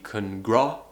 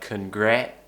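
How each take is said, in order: First: The second vowel is a back 'ah' sound. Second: The second vowel is a mid 'eh' sound. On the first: "some people pronounce it as ah" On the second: "Often it's pronounced as eh"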